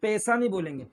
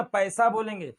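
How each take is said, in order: First: पैसा as "pesa"; पैसा with no "a" glide; wrong single vowel. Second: पैसा as "pa-esa"; correct double vowel. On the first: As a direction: keep a pure "e" in पैसा. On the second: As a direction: glide from "a" to "e" in पैसा. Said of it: "प ए मतलब पैसा". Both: Shown as a demonstration.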